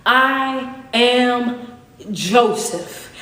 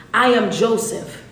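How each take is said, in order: First: I am Joseph drawn out very slowly, every word weighted; slow, heavy declaration of who he is; exclaimed Joseph. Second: Said in the usual way. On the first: Shown as a demonstration. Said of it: "he has the explanation mark at the end". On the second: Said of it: "That's why I have to say it like that".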